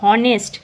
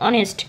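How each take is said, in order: First: The word begins with an h sound. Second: The word begins without an h sound. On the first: The speaker calls it wrong. "কিন্তু এটা হনেস্ট কিন্তু নয়" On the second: The speaker calls it right. "এইচটা কিন্তু silent"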